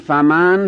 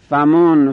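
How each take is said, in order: First: The f is followed by an a vowel. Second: The f is followed by a u vowel. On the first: "به فتح فا" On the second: "به ضم فا"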